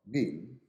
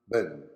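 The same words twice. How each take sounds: First: It is said with an American or British accent. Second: It is said with a New Zealand accent. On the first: "bin in American and British" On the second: "bin in New Zealand English"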